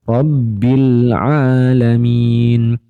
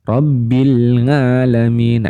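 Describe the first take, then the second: First: The second word starts with a throaty 'ain'. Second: The second word starts with an 'ng' sound. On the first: The speaker calls it right. "harus kita kembalikan bagaimana cara pelafalannya" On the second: The speaker calls it wrong. "huruf ain itu jadi nga"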